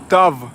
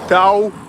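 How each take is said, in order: First: The word ends with a consonant v sound. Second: The word ends with a vowel-like u sound. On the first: This is the Russified form. "in Russian language, that's U pronounced like V" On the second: This is the original Bashkir form. "in Bashkir language, Tavtimanova sounds like Tao Ti, man"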